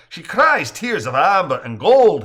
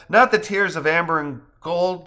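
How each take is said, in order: First: Loud, raised Irish brogue; playful Irish brogue, showing off. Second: Said in the usual way. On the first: Acted. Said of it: "he adds in an Irish brogue". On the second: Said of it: "Misty replies".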